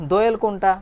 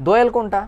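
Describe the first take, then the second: No difference in how they are said.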